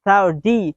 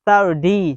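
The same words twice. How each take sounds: First: The middle consonant sounds like a soft d. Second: The middle consonant sounds like a soft d.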